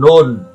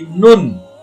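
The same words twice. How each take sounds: First: The vowel sounds like an 'o'. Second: The vowel sounds like a 'u'. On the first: The speaker calls it wrong. "bukan n o n, bukan nun" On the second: The speaker calls it right. "tapi nun"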